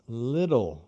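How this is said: The middle t is a quick tap, like r. "nós falamos little"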